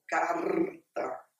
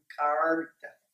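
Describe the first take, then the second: First: It is said in a southern border accent. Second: The r is pronounced as a retroflex sound. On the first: "conforme os gaúchos lá na fronteira falam" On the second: "que é um retroflexo"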